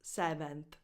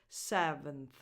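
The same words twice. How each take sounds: First: The second vowel is a full vowel. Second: The second vowel is reduced to a schwa. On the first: The speaker calls it wrong. "not seventh" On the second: The speaker calls it right. "The second vowel is just a schwa"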